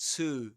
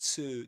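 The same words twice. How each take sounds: First: The vowel is a full long 'oo' sound. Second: The vowel is a full long 'oo' sound.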